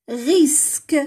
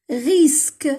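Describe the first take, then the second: Both takes have the same delivery.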